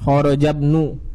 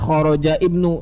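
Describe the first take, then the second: First: The words are joined, dropping the i sound. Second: The i sound of ibnu is pronounced separately. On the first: The speaker calls it right. "Langsung disambungkan ke ba-nya" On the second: The speaker calls it wrong. "Enggak boleh dibaca kharaja ibnu. Nah, salah"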